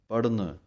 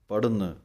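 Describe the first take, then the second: No difference in how they are said.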